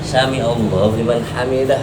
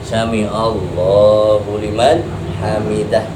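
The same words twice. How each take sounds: First: The phrase is said short and quick. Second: The phrase is drawn out long. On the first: It leaves an empty gap in the remembrance. The speaker calls it wrong. "sampai begini doang" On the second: There is no gap in the remembrance. The speaker calls it right. "Supaya tidak ada jeda"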